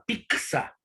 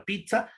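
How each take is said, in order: First: "pizza" with the t swapped for a c, like picsa; coastal pizza. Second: "pizza" with a clear ts sound, like pit-sa; highland pizza. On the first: Teacher shows the class the coastal pizza, picsa. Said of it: "desaparece para la aparición de la letra C". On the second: Teacher shows the class the highland pizza, clear ts. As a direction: say "pizza" the serrano way, with ts. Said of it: "la pronunciación de ese modo". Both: Shown as a demonstration.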